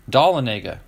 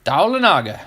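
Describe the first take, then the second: First: Dahlonega as dah-luh-NAY-guh, falling; corrected pronunciation. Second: Daulanaga as DAH-luh-NAH-guh, higher pitch; mispronounced town name. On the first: Host finds the city's name, corrected pronunciation. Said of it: "There you go". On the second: Host tries a Georgia city name for viewers, mispronounced. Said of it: "I'm probably not saying it right". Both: Shown as a demonstration.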